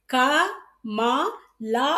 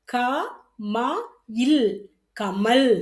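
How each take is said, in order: First: "க, மா, லா" read as three separate full syllables; wrong reading. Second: "இல்" closes the word, then "கமல்" said whole, ending on l; right reading. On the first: ("க, மா, லா" தவறாக தனித்தனி எழுத்தாக) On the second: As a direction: drop the final a, say "கமல்" with a closing l. ("கமல்" சரியான உச்சரிப்பு, கடைசியில் ல்) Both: Shown as a demonstration. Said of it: "உச்சரிக்க கூடாது".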